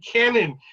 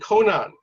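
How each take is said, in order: First: The first vowel sounds like the 'a' in 'cat'. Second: The first vowel sounds like the 'o' in 'go'. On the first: The speaker calls it right. "it would be Cannon, not Conan the Barbarian" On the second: The speaker calls it wrong. "you were you were saying Conan"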